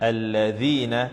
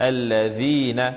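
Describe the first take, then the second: No difference in how they are said.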